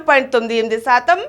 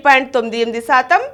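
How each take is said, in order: Both takes have the same delivery.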